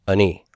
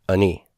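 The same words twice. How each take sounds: Both takes have the same delivery.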